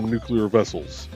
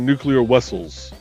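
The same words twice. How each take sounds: First: It is said in a plain American accent. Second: It is said with a heavy Eastern European accent. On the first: "instead of" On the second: "kind of like uh Chekhov from Star Trek"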